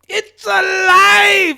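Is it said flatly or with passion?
with passion. It is said with strong passion.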